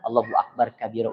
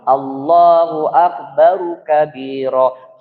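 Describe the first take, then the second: First: Akbar ends with no added vowel. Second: Akbar ends with an added u vowel. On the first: The speaker calls it wrong. "Udah salah itu" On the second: The speaker calls it right. "Mana ru'nya? Itu kan di dhamma"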